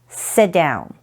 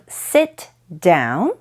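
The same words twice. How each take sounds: First: The T at the end of sit is dropped. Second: The T at the end of sit is pronounced. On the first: "the T in sit is dropped" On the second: "instead of sit down"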